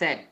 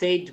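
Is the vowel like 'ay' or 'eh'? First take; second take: eh; ay. First: The vowel is a short 'eh' sound. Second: The vowel sounds like 'ay', as in 'say'. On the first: The speaker calls it right. "এটা বলবো স্যাড" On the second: The speaker calls it wrong. "কিন্তু এটা সেইড বলবো না"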